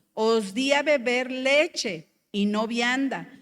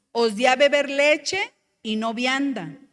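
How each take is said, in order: The two takes are said the same way.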